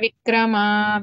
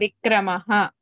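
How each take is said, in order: First: The word ends in a plain vowel. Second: The word ends with a breathy h sound. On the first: The speaker calls it wrong. "Is not vikrama" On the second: The speaker calls it right. "vikramah. That's it"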